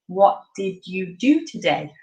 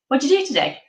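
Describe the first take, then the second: First: It is said slowly, word by word. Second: It is said fast, as one run-together chunk.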